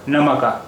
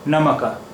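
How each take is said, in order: Both takes have the same delivery.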